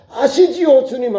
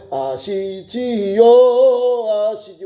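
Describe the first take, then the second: First: High, quicker "아시지요"; crying plea. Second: Very slow, stretched "아시지요"; drawn-out plea. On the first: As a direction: call "아시지요" up to God urgently. Same plea cried out before God. ("아시지요"를 높게 부르짖듯) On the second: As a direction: linger on every syllable of "아시지요". Pleading with God, drawn out. ("아시지요"를 길게 늘이며 간절히) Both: Acted.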